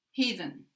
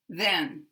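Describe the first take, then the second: First: "Heathen" with the last syllable reduced to schwa. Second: "Then" stressed, with a clear eh; full vowel. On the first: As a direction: stress hea and weaken then in "Heathen". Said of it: "schwa can be in an unstressed syllable". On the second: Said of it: "full word here with the full vowel". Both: Shown as a demonstration.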